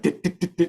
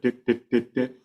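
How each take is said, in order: First: Each dit is cut off very short. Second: Each dit is held at its full length. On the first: The speaker calls it wrong. "the dits are too short" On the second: The speaker calls it right. "instead of"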